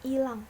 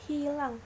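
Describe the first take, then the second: First: The word begins directly with a vowel. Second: The word begins with an h sound. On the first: The speaker calls it wrong. "lafal tidak bakunya" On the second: The speaker calls it right. "lafal bakunya"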